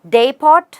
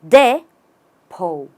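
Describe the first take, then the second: First: The final t is clearly sounded. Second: The final t is silent. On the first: The speaker calls it wrong. "There is no pot" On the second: The speaker calls it right. "The T isn't there"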